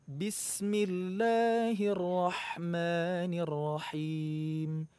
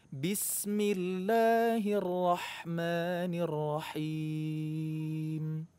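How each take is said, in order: Both takes have the same delivery.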